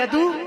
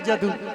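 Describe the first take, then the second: First: The word begins with a y sound. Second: The word begins with a j sound. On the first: This is how the word is written. "लिखा जाता है यदु" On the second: This is how the word is actually pronounced. "उच्चारण है उसका जदु"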